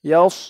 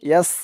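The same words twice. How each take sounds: First: The s is heavy, with a full mouth. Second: The s is a plain, light s sound. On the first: The speaker calls it right. "মুখটা একটু ভরপুর হয়ে যাবে সদের উচ্চারণ করার সময়" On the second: The speaker calls it wrong. "ইয়াস বলা যাবে না। ইয়াস বললে কিন্তু এই সদের জায়গায় সিনের উচ্চারণ চলে আসবে।"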